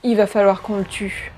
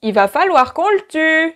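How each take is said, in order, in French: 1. Intonation naturelle, comme en français de tous les jours. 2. Intonation maladroite, non native. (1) "une personne euh, qui parle français euh, tous les jours dirait" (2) "ils vont plutôt dire leurs phrases comme ça"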